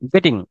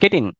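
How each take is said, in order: First: The two words are linked together. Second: The two words are said separately. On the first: The speaker calls it right. "சேர்த்து சொல்லலாம்" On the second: The speaker calls it wrong. "தனித்தனியா சொல்லாம"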